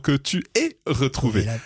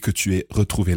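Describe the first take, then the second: First: The word 'aies' is built up to and emphasized. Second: The word 'aies' passes quickly without emphasis. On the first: The speaker calls it wrong. "we very often almost precede them with a drum roll" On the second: The speaker calls it right. "there's not too much stress on that "eh""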